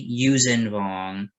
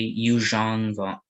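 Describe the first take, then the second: First: The middle consonant is a plain z sound. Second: The middle consonant is a zh sound. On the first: The speaker calls it right. "So I will say Yuuzhan Vong" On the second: The speaker calls it wrong. "You can say Yuuzhan Vong"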